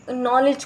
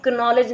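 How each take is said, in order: First: Said in the usual way. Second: नॉलेज as "ka-nowledge", K voiced; silent K sounded. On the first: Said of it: "नॉलेज ना बोला जाए". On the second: Shown as a demonstration. Warning what not to say, silent K sounded. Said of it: "ना बोला जाए".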